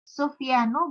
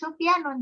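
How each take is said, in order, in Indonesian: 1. Nama itu berakhir dengan bunyi -u saja. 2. Nama itu berakhir dengan bunyi -un. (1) "dia tidak tanwin di ujungnya"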